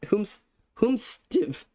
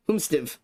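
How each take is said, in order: First: Humstiv said very slowly, syllable by syllable; puzzled, drawn-out Humstiv said one piece at a time; slow sounding out. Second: Said in the usual way. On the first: Shown as a demonstration. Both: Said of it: "Who, how the".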